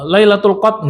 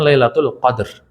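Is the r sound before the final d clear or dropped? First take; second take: dropped; clear. First: The r sound before the final d is dropped. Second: The r and the final d are both clearly pronounced. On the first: The speaker calls it wrong. "nggak ada" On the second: The speaker calls it right.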